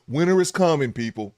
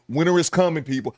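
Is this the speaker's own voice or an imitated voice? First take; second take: imitated voice; own voice. First: It is said in a put-on imitation voice. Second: It is said in an ordinary natural voice.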